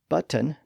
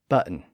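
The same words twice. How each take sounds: First: The middle T sound is clearly pronounced. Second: The middle T sound is dropped.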